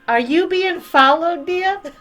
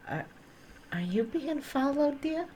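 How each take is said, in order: First: It is said loudly, echoing. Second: It is said very quietly.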